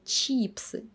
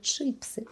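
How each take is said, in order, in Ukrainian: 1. Перший голосний — напружений звук 'ee'. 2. Перший голосний — ненапружений звук 'ih'. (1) "Я завжди все життя думала, що чіпси" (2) "А виявляється, чипси"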